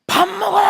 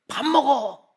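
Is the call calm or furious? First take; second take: furious; calm. First: It is shouted in an explosive, furious voice. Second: It is said as a firm, controlled command. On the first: Patience has run out after being ignored. "아내의 분노 게이지가 계속 올라옵니다" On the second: It is a plain order to come and eat. "명령형 그래"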